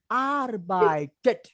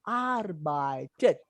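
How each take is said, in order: First: Arbeitet said slowly, drawn out; slow demo tune. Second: Arbeitet slowly with lower pitch; slow demo tune. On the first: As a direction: demonstrate the German melody on Arbeitet slowly. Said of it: "the tone will go up". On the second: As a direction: model the falling ending on Arbeitet, slowly. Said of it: "the last will always come down". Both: Shown as a demonstration.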